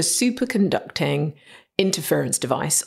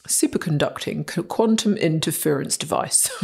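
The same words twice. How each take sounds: First: Said in the usual way. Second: Plummy upper-class English accent; posh voice. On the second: Shown as a demonstration. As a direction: say it like a posh British presenter. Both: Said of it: "You have to say it in the posh voice".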